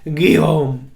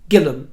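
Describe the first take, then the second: First: It is said with French sounds. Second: It is read out with English spelling sounds. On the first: The speaker calls it right. "how it was actually pronounced" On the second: The speaker calls it wrong. "they said his name as it was written down"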